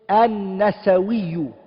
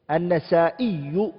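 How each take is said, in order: First: A w sound comes before the final syllables. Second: A glottal stop comes before the final syllables. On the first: This is a less common form. "There's another way of saying it" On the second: This is the most common form. "the one that we all know"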